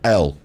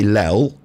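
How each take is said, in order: First: The letter name begins with a vowel sound. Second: The letter name begins with an l sound. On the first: The speaker calls it right. "It begins with an E" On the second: The speaker calls it wrong. "You don't say lel"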